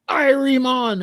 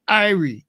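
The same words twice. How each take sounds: First: IRIE drawn high in Jamaican accent; mock Jamaican accent. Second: Said in the usual way. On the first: Shown as a demonstration. Showing what he would never say, Jamaican accent. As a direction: exaggerate a high-pitched Jamaican greeting. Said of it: "I wouldn't go". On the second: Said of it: "I'd go".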